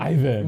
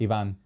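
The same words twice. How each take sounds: First: The name is said with an American accent. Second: The name is said with a Spanish accent. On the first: "the American was" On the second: "In Spanish, it's Ivan"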